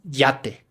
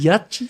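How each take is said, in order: First: The word ends with a plain 'teh' sound. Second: The word ends with a 'chee' sound.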